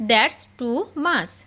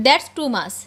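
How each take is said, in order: First: Slow and deliberate; slow repeat. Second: Said in the usual way. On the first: Shown as a demonstration. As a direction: stretch each word out for the class. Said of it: "teacher repeats it slowly". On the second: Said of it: "teacher models the phrase".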